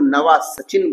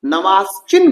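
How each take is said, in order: First: The name is said as four syllables, Navasachin. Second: The name is said as three syllables, Navasin. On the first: Other people say it this way. "कुछ लोग नवा सचिन बोलते हैं" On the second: Some people say it this way. "नवासिन बोलते हैं कुछ लोग"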